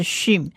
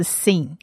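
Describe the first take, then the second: First: 讯 as Hebrew shin, starting with sh; sonido sh hebreo. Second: Sin with a plain s, like "seen"; s sound. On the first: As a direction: say 讯 with a hushing sh. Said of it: "它的黑点在右上方，所以它是讯". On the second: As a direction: say sin with s instead of sh. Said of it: "如果黑点在左上方是sin". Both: Shown as a demonstration.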